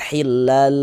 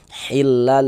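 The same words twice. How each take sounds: First: The final sound is held long. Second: The final sound is kept short. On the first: The speaker calls it wrong. "jangan dibaca hilal, ditahan gitu jangan ya, salah" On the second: The speaker calls it right. "baca pendek saja"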